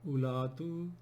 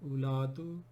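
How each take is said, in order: Both takes have the same delivery.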